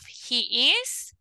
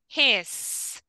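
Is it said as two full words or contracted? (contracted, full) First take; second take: full; contracted. First: It is said as two full separate words. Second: It is said as one short contracted syllable. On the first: "we have the complete forms" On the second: "the contracting form"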